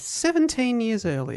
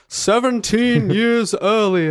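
First: The voice is pitched slightly higher. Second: The voice is pitched lower. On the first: The speaker calls it right. "That was slightly higher" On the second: The speaker calls it wrong. "I could put in a sting that says"

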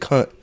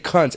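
First: The final T is cut off. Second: The final T is fully released. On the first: The speaker calls it right. "they kind of cut off the T" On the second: The speaker calls it wrong. "We do a hard T"

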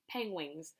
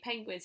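First: The second syllable is said like 'wings'. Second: The word is said plainly, without a 'w' sound. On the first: The speaker calls it wrong. "he says penguins. Peng wings" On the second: The speaker calls it right. "He can't say penguins"

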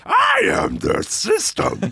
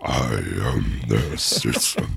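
First: It is said in a grotesque high-pitched voice. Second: It is said in a grotesque low-pitched voice. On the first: "grotesque high voice" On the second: "grotesque low voice"

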